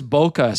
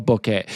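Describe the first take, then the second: First: Bokeh with a final "uh", the rejected way; bokeh as BOH-kuh. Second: Bokeh ending in "eh", the insisted-on way; bokeh as BOH-keh. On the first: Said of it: "So this bokeh stuff". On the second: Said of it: "it's all bokeh". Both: Shown as a demonstration.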